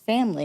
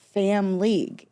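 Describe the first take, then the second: First: It is said quickly, running into one word. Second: It is said slowly as two separate words.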